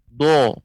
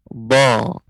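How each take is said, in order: First: The lips are pushed forward, rounding the vowel. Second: The lips stay in place while the tongue extends. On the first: The speaker calls it wrong. "jangan sampai monyong. Ini juga keliru" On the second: The speaker calls it right. "Lidah kita ke depan. Adapun bibir bibir kita tetap pada posisinya"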